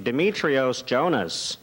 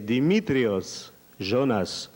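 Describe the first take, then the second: First: The name is said with English pronunciation. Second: The name is said with Greek pronunciation. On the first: He is singing for English speakers. "Si je chante pour des anglophones" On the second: He is singing for Greeks. "si je chante pour les Grecs"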